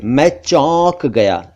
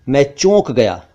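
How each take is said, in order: First: "चौंक" slowly with open au; correct au vowel. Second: "चौंक" mispronounced "chonk", closed o; wrong o vowel. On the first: Teacher shows correct phrase, slow au sound. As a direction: say "चौंक" as "chawwnk". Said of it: "ये ठीक है". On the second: Teacher shows the mistake, o sound. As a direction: say "चौंक" as "chohnk". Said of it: "ये ठीक नहीं है". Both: Shown as a demonstration.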